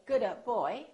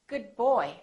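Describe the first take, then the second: First: The D is released with an audible burst. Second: The D is held without an audible release. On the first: The speaker calls it wrong. "Don't say good boy" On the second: The speaker calls it right. "hold it, don't release the final stop"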